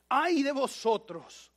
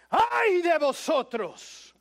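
First: It is said at a normal, quiet volume. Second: It is shouted loudly.

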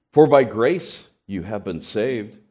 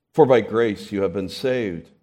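Both takes have the same delivery.

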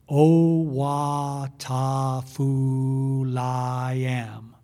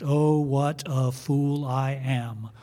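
First: It is said at a slow pace. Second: It is said at a fast pace.

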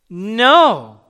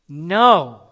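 First: It is said at the loudest level. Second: It is said somewhat louder.

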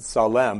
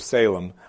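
First: It is said the way Hebrew would sound. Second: It is said the usual English way. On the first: "I intentionally pronounce it Salem because that's how the Hebrew would have sounds" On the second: "usually people, we read it and we go Salem"

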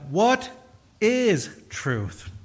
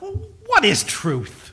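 First: It is asked as a plain, neutral question. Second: It is asked in a cynical, dismissive tone.

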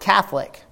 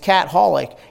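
First: The word is said smoothly as one unit. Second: The word is split into cat and holic. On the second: "But you break the thing down"

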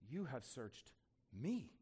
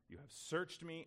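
First: It is said with wonder and amazement. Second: It is said matter-of-factly, stressing searched. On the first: Being personally searched is astonishing. "In a kind of wonder and amazement" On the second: The action of searching is the main point. "we emphasize the words searched and known. That's fine"

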